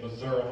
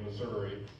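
First: It is said the southern Missouri way. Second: It is said the ordinary northwest Missouri way.

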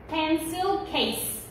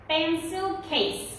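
No difference in how they are said.

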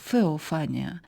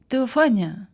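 First: The word begins with an F sound. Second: The word begins with a T sound. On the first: This follows the Reuchlinian reading of ancient Greek. "може також звучати як «феофанія», за версією іншого вченого доби Ренесансу Йоганна Рейхліна" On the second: This follows the Erasmian reconstruction of ancient Greek. "так це слово вимовляється за Еразмом Роттердамським"

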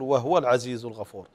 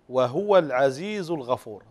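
First: The h is said with no vowel after it. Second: The h is said with rounded lips and 'u'. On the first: The speaker calls it wrong. "كثير من الإخوة المقرئين المبتدئين يسكن الهاء" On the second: The speaker calls it right. "الصحيح أن نضم الشفتين"

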